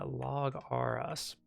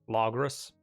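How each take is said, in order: First: The ending is spoken as the letters R S. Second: The ending is spoken as one syllable, ros. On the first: The speaker calls it wrong. "Which I know is not how you're supposed to pronounce it" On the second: The speaker calls it right. "I think it's supposed to be just Logros"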